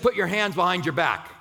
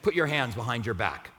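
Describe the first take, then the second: First: It is said harshly, like a stern officer. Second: It is said in a plain, neutral tone.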